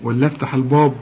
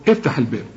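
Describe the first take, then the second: First: "الباب" thick and dark, like "bawb"; wrong heavy ba. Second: "الباب" thin and fronted, like "beb"; light ba. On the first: Teacher offering an absurd alternative, heavy ba. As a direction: round and darken the vowel in "الباب". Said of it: "أقول لك افتح الباب ولا افتح الباب؟". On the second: Teacher confirming the everyday sound, light ba. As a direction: keep the vowel of "الباب" light. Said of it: "رقق الباء". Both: Shown as a demonstration.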